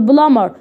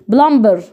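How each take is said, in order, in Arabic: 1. صوت b لا ينطق بعد m. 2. صوت b ينطق بعد m. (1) "بقول بلامر" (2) "ما قلتش بلمبر"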